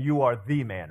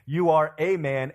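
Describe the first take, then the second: First: "the" stressed as THE man; "You are the man" with a clear push on "the". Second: Said in the usual way. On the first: Shown as a demonstration. Pastor contrasts a man and THE man, stressing the. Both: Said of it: "there's a difference between saying".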